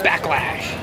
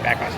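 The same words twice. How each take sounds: First: The word is said with big, dramatic energy. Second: The word is said plainly, without extra energy. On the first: The speaker calls it right. "You have to say it like that" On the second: The speaker calls it wrong. "You can't just say Backlash"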